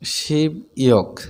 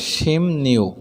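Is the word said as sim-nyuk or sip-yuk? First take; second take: sip-yuk; sim-nyuk. First: Each syllable is said separately, without sound change. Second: The syllables link, with an added n sound. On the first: The speaker calls it wrong. "আমরা জানি ষোলোকে শিব ইয়ক" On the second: The speaker calls it right. "সঠিক উচ্চারণ করলে হবে শিম নিউক"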